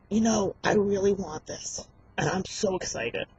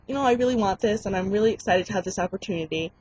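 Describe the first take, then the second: First: Overdone eagerness. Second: Said in the usual way. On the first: Shown as a demonstration. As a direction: overplay how much you want it. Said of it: "But you don't wanna be like". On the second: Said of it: "You wanna be like".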